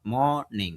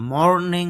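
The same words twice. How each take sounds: First: মর্নিং with a drawn-out first vowel and the r barely heard; correct pronunciation. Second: মর্নিং with the r sounded clearly, short and clipped; wrong pronunciation. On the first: Teacher shows students the right way, drawn out with a faint r. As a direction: stretch মর্নিং and let the r almost vanish. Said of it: "এখানে একটু টান দিতে হবে, আর র সাউন্ডটা কম পড়বে". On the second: Teacher shows students the wrong way, r fully sounded. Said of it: "মর্নিং হবে না". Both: Shown as a demonstration.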